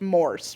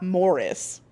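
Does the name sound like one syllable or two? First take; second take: one; two. First: The name is said with one syllable. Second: The name is said with two syllables. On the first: The speaker calls it right. "It's Morse, right?" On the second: The speaker calls it wrong. "I actually think I'm even saying it wrong. It's not Morris"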